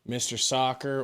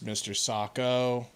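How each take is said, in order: First: The second word ends with an 'er' sound. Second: The second word ends with an 'o' sound. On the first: The speaker calls it right. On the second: The speaker calls it wrong. "or as you mispronounce"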